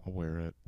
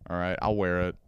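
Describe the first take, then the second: First: Softer, giving in under the breath; quiet resigned repeat. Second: Said in the usual way. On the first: Real, not acted. Grudgingly agreeing to wear the vest, quiet resigned repeat. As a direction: let the fight drain out.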